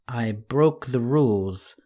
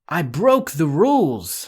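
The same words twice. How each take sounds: First: The voice fades away, trailing off. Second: It is shouted with a raised voice.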